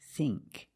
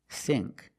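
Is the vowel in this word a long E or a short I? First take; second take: long E; short I. First: The vowel is a long E sound. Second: The vowel is a short I sound. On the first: The speaker calls it right. "It's the long E" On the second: The speaker calls it wrong. "not the short I. It's not think"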